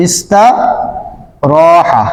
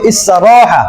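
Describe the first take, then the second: First: ইস্তারাহা stretched very slowly syllable by syllable; drawn-out demo. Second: Said in the usual way. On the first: Shown as a demonstration. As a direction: draw out ইস্তারাহা as slow as you can. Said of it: "মুখে কিন্তু কিছুটা বাজে". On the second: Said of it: "করলে কি হবে?".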